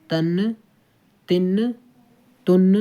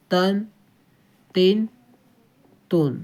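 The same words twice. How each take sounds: First: تن with the نون left ringing on; wrong tanween. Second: تن with voice and breath cut right at the نون; correct tanween. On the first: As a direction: let the نون of تن carry on, the wrong way. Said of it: "تو یہ کیا ہے؟ غلط ہو جائے گا". (تن غلط، نون کی آواز جاری رکھ کر) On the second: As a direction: stop the sound dead on the نون of تن. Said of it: "آواز آتے ہی آپ کو سانس اور آواز دونوں روک دینا ہے". (تن درست، نون پر آواز روک کر) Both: Shown as a demonstration.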